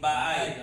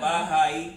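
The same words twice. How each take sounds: First: The h sound in the middle is dropped. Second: The h sound in the middle is pronounced. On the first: "Sa Kapampangan, nawawala yung H" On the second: "Yung bahay"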